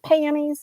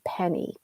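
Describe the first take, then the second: First: It is said in a heavy southern accent. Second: It is said in a neutral American accent.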